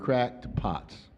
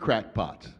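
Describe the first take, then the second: First: It is said slowly as two separate words. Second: It is said quickly as one word. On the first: It means flawed vessels, broken but still useful. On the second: It is a mild insult meaning eccentric people.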